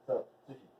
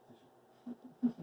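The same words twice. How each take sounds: First: Said in the usual way. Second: Much higher, drawn-out Sushi; sing-song call. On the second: Shown as a demonstration. Owner calls her dog Sushi in a high sing-song.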